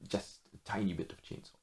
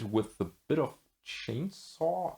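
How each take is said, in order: First: Quiet. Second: Said in the usual way. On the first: Real, not acted. Softer restatement, tiny stressed.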